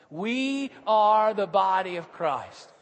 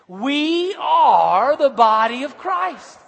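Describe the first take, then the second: First: It is said plainly, without special conviction. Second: It is said forcefully, with strong conviction. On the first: "Just say that with me" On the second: "Now say it like you mean it"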